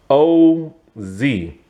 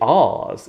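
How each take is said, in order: First: It is said as two separate letters. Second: It is said as one short word. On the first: The speaker calls it wrong. "they say O Z. That doesn't sound cool" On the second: The speaker calls it right. "They don't say Oz in this movie"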